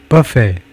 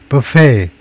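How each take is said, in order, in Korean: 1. 강세는 첫 번째 음절에 있어요. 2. 강세는 두 번째 음절에 있어요. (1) "Less common but still acceptable pronunciation" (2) "With the stress on the second syllable"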